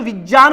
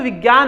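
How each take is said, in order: First: The middle conjunct is said with a j sound. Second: The middle conjunct is said without a j sound. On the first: The speaker calls it right. "इसको विज्ञान बोलते हैं" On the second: The speaker calls it wrong. "अपन बोलते हैं इसको विज्ञान है, लेकिन ये विज्ञान नहीं"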